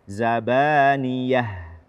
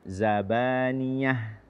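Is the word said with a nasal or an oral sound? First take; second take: oral; nasal. First: The word is said without nasal resonance. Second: The word is said through the nose, sounding nasal. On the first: The speaker calls it right. "tidak ada e, ikut serta rongga hidung" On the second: The speaker calls it wrong. "jangan sampai kita ikutkan rongga hidung. Zabaniyah, tidak"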